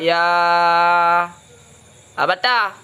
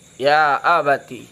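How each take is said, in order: First: The word ends in a short a vowel. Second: The word ends in a long i vowel. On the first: "Ya fathah ta" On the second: "bil ya dengan ya"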